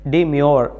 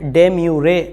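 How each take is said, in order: First: The word ends on 'myoor' with no extra syllable. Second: The word ends with an extra 'ray' syllable. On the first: The speaker calls it right. "इसका pronunciation होता है डिम्योर" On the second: The speaker calls it wrong. "उसका pronunciation डेम्यूरे नहीं"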